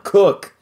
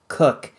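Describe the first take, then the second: First: Loud, higher one-word command; barked order. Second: Said in the usual way. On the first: Acted. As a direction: snap "Cook!" at him like an order. Pirate orders Vlad.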